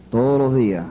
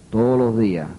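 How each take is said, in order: Both takes have the same delivery.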